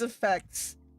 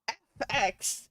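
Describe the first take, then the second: First: It is said as the single word effects. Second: It is spelled out as two letters. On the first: The speaker calls it right. "oh my god, it means effects" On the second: The speaker calls it wrong. "I would always say it like that to people"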